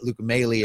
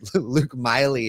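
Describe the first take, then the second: First: The surname's first vowel sounds like 'ay'. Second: The surname's first vowel sounds like 'eye'. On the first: This is how the name is actually said. The speaker calls it right. "if you hear it" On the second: This is how the spelling suggests it. The speaker calls it wrong. "if you read it"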